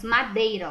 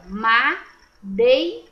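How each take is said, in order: First: Said in the usual way. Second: "Madeira" drawn out slowly, syllable by syllable, a bit louder; teacher sounding out "Madeira" slowly; split into syllables. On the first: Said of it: "ó". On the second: Shown as a demonstration. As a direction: stretch "Madeira" out for the class to hear each syllable. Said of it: "O E e o I fica juntinho na mesma sílaba".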